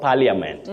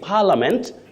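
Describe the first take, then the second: First: The middle i vowel is clearly sounded. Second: The middle i vowel is not sounded. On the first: The speaker calls it wrong. "not parliament" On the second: The speaker calls it right. "you say parliament ... That I is silent"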